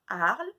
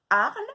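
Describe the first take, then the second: First: Said in the usual way. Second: Loud clipped "Arle"; called-out syllable. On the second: Shown as a demonstration. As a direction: call out "Arle" to the class. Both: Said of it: "de deviner lesquels c'est".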